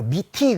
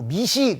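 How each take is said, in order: First: The second syllable starts with a t sound. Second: The second syllable starts with an s sound. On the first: "미티 그래도 틀리고" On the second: "미시 그래도 틀려요"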